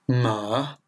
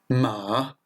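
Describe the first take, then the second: No difference in how they are said.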